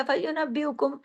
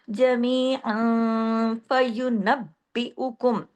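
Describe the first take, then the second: First: फयुनब्बिउकुम quickly, with only a single weak b; wrong slack फयुनब्बिउकुम without the doubling; loose, slack reading. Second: Slow recitation, long nasal hum, then b pressed hard in फयुनब्बिउकुम; firmly joined double b. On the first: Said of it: "इसको ढीला ढाला". (फयुनब्बिउकुम ढीला ढाला, बिना तशदीद) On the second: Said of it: "सख्ती से जोड़ा है". (फयुनब्बिउकुम में बा सख्ती से जोड़कर) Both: Shown as a demonstration.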